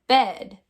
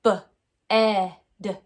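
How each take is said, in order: First: Said in the usual way. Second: "B-ed" in loud separate sounds, buh, eh, duh; sounded out, short E. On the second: Shown as a demonstration. Teacher trying the short E sound, sounded out loudly. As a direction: punch each sound of "B-ed" apart. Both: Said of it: "Now let's try the short E sound".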